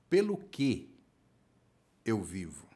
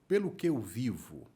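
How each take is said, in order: First: It is spoken slowly, with pauses between words. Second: It is spoken at a normal conversational pace.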